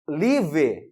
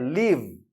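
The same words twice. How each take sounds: First: The word ends with an added vowel sound. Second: The word ends cleanly on a V sound. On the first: The speaker calls it wrong. "Está errada a pronúncia" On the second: The speaker calls it right. "A pronúncia correta é live"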